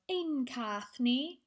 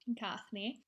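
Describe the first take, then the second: First: The first word ein is said in full. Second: The first word is reduced to a short n.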